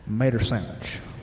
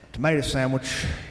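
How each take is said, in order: First: Mater, and the W in sandwich is dropped. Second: Both words are said in full. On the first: "the W in sandwich is silent" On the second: "is not pronounced that way"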